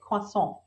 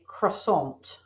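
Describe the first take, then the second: First: It is said with a French accent. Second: It is said with an American accent.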